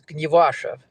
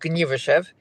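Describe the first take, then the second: First: The name is said with a Polish pronunciation. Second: The name is said with a Yiddish pronunciation. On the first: "the Polish way to say it" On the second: "there's a Yiddish way to say it"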